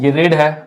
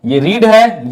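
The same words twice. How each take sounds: First: रेड said like red; read past. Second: रीड with long ee: reed; read present. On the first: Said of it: "वो होता है रेड". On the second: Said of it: "रीड सबको पता है". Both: Shown as a demonstration.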